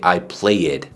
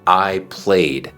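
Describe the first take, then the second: First: The ending is an added 'id' syllable. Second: The ending is a soft d, no extra syllable. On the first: The speaker calls it wrong. "No se dice" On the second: The speaker calls it right. "hazlo como te estoy enseñando"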